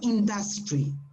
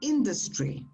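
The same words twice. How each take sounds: First: The stress falls on a later syllable. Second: The stress falls on the first syllable. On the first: The speaker calls it wrong. "it's not industry, no" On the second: The speaker calls it right. "It's on the first syllable"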